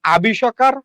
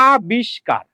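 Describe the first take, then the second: First: "আবিষ্কার" said a-bi-sho-kar, in four syllables; wrong added vowel. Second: "আবিষ্কার" said a-bish-kar, in three syllables; correct closed syllable. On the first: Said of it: "আপনি আবিষ্কার উচ্চারণ করেন না". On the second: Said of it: "আপনি উচ্চারণ করেন কি". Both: Shown as a demonstration.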